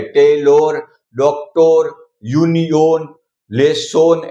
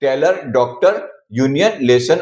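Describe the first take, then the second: First: टेलर and डॉक्टर drawn out as "tay-LORE", "dok-TORE"; full round O in the last syllable of टेलर, डॉक्टर, यूनियन, लेसन; wrong long-O endings. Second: टेलर and डॉक्टर ending in a short "ur"; quick neutral uh in the last syllable of टेलर, डॉक्टर, यूनियन, लेसन; correct schwa endings. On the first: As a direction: say यूनियन as "yuni-YONE", लेसन as "less-SONE". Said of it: "ऐसा नहीं बोला है". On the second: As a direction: say यूनियन as "YOON-yun", लेसन as "LESS-un". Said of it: "इसको हमने अ pronounce किया है". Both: Shown as a demonstration.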